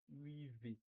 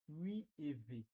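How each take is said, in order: First: No vowel is pronounced before the final V. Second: A vowel is pronounced before the final V. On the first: The speaker calls it right. "mais la dia dit huit V. Et supprime la voyelle E" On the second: The speaker calls it wrong. "La dia ne dit pas huit E V"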